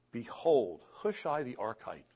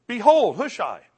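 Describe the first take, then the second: First: Said in the usual way. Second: High, loud burst on "Behold"; amazed exclamation. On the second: Retold or imitated. Hushai appears as David prays, amazed exclamation. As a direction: herald a sudden arrival with excitement. Excited re-telling of sudden arrival.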